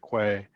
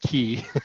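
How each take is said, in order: First: The word is pronounced like 'kway'. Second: The word is pronounced like 'key'. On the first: The speaker calls it wrong. "A lot of people say Quay" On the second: The speaker calls it right. "that's the correct pronunciation. The word is key"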